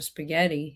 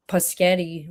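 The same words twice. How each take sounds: First: SPAGHETTI with SP at the start; standard pronunciation. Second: PASCHETTI, the S moved after the P; childish mispronunciation. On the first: Shown as a demonstration. Giving the correct word for comparison, standard pronunciation. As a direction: say "spaghetti" the standard way, SP first, softer. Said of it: "instead of spaghetti". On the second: Retold or imitated. Mocking how people said spaghetti when younger, mispronunciation. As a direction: say spaghetti as "puh-SKETTI". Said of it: "same people that said".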